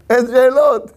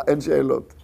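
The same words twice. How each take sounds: First: אין שאלות raised high and louder, falling on שאלות; emphatic refrain. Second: Said in the usual way. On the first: Shown as a demonstration. Preacher to congregation, exclaiming אין שאלות emphatically. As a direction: proclaim אין שאלות with rising force. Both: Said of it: "repeated refrain, second louder".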